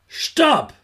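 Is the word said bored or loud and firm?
loud and firm. It is said loudly, clearly and firmly.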